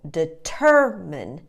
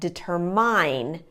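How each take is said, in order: First: The first and third vowels are weak. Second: The first and third vowels are full. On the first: The speaker calls it right. "put the schwa, weak little uh sound, on the first and the third syllables" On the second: The speaker calls it wrong. "The mistake that students often make"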